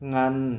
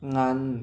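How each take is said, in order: The two takes are said the same way.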